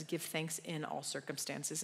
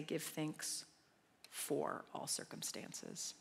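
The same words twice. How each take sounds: First: "in all circumstances" said slowly with weight on "in"; slow down and lean on "in"; stress on IN. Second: "for all circumstances" said slowly and softly, leaning on "for"; stress on FOR. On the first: Preacher reads the verse's real wording, stressing IN. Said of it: "And here it is". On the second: Preacher contrasts the wrong wording, softly stressing FOR. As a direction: hush and slow down on "for all circumstances". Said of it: "That it doesn't say". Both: Shown as a demonstration.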